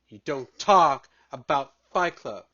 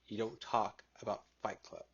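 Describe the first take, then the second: First: It is said in a forceful, intense voice. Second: It is said in a plain, calm voice.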